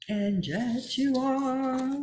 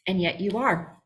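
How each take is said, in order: First: Higher, slow and softer, leaning on you; slow emphasis. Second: Said in the usual way. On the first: Shown as a demonstration. Insisting to the group that they are, slow and soft. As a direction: let each word land slowly.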